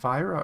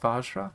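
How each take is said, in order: First: The middle sounds like a plain 'y' glide. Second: The middle has a 'dj' sound before the r. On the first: The speaker calls it wrong. "I said it wrong. I said Vyra earlier" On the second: The speaker calls it right. "It looks like it's Vajra"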